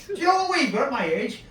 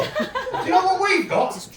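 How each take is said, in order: First: Said in the usual way. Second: High, slower laughing yell; comic shout. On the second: Real, not acted. Telling the young audience what his age brings, shouting.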